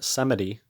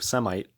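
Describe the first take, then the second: First: The word ends with an 'ee' sound. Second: The word ends with an 'eye' sound. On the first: This is the usual way the name is said. "they get us pronounce it a little bit different" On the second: The name is said the way it is spelled. "here's Yo Semite"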